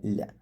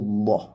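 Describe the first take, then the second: First: The L is light, said with spread lips. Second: The L is heavy, said with a full mouth. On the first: "ചിരിച്ചുകൊണ്ട് പറയാൻ" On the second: "തഫ്ഹീമായിട്ട് പറയേണ്ടത്"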